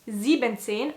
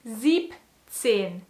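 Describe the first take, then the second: First: The en syllable of sieben is kept. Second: The en syllable of sieben is dropped. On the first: The speaker calls it wrong. "We don't say siebzehn" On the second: The speaker calls it right. "You have to say siebzehn. So we cut the E N"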